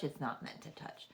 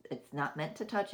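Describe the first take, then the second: First: Breathy whisper, dropped right down; hushed unvoiced repeat. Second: Said in the usual way. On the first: Shown as a demonstration. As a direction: whisper it as a private aside.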